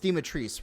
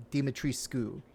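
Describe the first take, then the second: First: Dimitris ending in "-trees", no "-cu"; creators' pronunciation. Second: Dimitrescu with the final "-escu" fully sounded; Romanian pronunciation. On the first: Correcting to the game creators' version, Dimitris ending "-treece". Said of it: "clarified that it is Dimitris". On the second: Explaining the original Romanian name, Dimitrescu with "-escu" sounded. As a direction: say Dimitrescu ending in "skoo". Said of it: "in the original Romanian, Dimitris is pronounced". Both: Shown as a demonstration.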